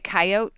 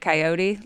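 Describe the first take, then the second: First: It is said with the local Montana pronunciation. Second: It is said with the standard, non-local pronunciation. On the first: "I say coyote" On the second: "instead of coyote"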